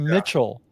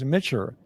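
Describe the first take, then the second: First: The name ends with a clear L sound. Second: The name ends with an R-like sound. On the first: This is the speaker's own pronunciation of the name. "my name is" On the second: This is how people in Japan said the name. "So when I was in Japan, it was Mitcher"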